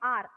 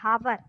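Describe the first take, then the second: First: The word starts with a vowel, no h sound. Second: The word starts with an audible h sound. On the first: The speaker calls it right. "एच होता है silent, इसलिए अपन इसको पढ़ते हैं आर" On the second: The speaker calls it wrong. "एच से pronounce हो रहा है"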